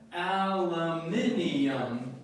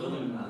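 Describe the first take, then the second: First: It is said the British way, with five syllables. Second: It is said the American way, with four syllables. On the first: "both of y'all pronounce it like the British expression" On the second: "I pronounce it aluminum"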